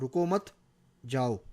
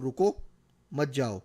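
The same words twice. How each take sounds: First: The pause comes after 'रुको मत'. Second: The pause comes right after 'रुको'.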